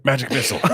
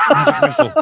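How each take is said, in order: First: Said in the usual way. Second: High squeaky spell cast; squeaky wizard voice. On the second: Pretend. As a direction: shriek the spell like a silly wizard. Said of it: "I hate you already".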